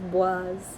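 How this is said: Said the way a French speaker would. The speaker calls it wrong. "if you're French, you might try and pronounce it as Boise, and that's also wrong"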